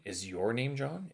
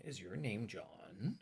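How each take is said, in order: First: YOUR lifted and drawn out; slow question leaning on YOUR; stress on YOUR. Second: Soft, slow, JOHN swooping up; drawn-out question rising on JOHN. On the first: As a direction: put the weight on "your". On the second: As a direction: let "John" climb at the end. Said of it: "goes up at the end". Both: Shown as a demonstration.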